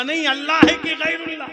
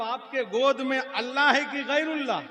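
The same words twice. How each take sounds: First: Much higher, louder repeat; shouted demand. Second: High, loud demand; challenging question. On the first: Sunni shouting his question again at the cleric. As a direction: insist at full shout. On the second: Sunni challenging the cleric about the baby, loudly. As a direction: call him out in challenge. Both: Acted.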